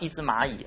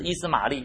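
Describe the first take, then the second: First: The name ends with a 'yi' sound. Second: The name ends with an 'li' sound. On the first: The speaker calls it right. "应该叫一只蚂蚁" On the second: The speaker calls it wrong. "其实不是伊斯玛利"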